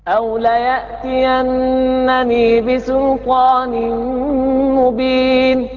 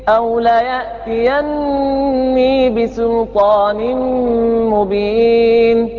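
The two takes are said the same way.

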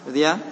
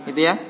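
The two takes are said the same way.

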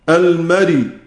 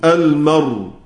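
First: The final consonant carries a vowel after it. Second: The final consonant is stopped with no vowel. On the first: "يحرك الراء بحركة الهمزة" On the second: "ثم يقف بالسكون"

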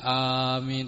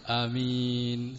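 First: The first vowel is held long. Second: The first vowel is kept short. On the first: "tidak amin" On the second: "dipendekkan huruf alifnya"

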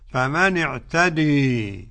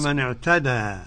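First: The final vowel is tilted fully toward e. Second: The final vowel is an open a sound. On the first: "بالإمالة الكبرى" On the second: "الأول بالفتح كما نقرأ في حفص"

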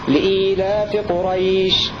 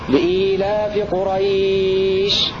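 First: The last word's vowel is held for two counts. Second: The last word's vowel is held for four counts. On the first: "حركتين" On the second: "أربع حركات"

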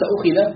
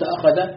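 First: The verb is said ukhidha, with u and i vowels. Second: The verb is said akhadha, with a vowels throughout. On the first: The covenant was taken, with no doer named. "بضم الهمزة وكسر الخاء" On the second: He took the covenant, with God as the doer. "وبفتحهما"

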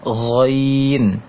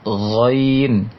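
No difference in how they are said.

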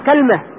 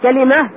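First: First vowel a, with no vowel after the l. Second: First vowel a, with a vowel after the l. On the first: This is an accepted variant form. "فتح الكاف مع سكون إيش؟ اللام" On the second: This is the most eloquent form, used in the Quran. "بفتح الكاف مع إيش؟ مع كسر اللام، وهي اللغة الفصحى"

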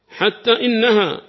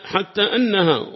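First: The hamza is voiced with an i vowel. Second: The hamza is voiced with an a vowel. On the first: "كسر هذا الذي يظهر" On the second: "فعندنا هنا بالفتح"

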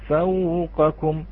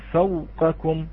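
First: The soft glide flows on, slightly lengthened. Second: The soft glide is held back and cut short. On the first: The speaker calls it right. "نقول فوقكم" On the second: The speaker calls it wrong. "لا تحبس الصوت، لا تقول فوقكم"

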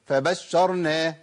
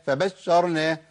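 No difference in how they are said.

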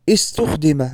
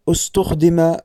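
First: The first vowel is an i sound. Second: The first vowel is a u sound. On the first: The speaker calls it wrong. "بكسر الهمزة" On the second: The speaker calls it right. "والصواب استخدم بضمها"

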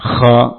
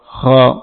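First: The kha sound is rough and raspy. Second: The kha sound is clean and smooth. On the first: "boleh dengan kotor" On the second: "dan bersih"

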